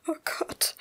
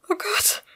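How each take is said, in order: First: Breathless gasped whisper; gasping. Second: High-pitched alarmed repeat; much higher pitch. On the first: Woman staring at her bleeding cut, gasping it out. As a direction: gasp it out, almost voiceless. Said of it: "stieß sie schließlich keuchend hervor". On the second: Woman panicking at her bleeding cut, voice shooting up high. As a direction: let the voice leap up in alarm. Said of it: "wiederholte sie sich in wesentlich höherer Tonlage". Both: A narrator's reading.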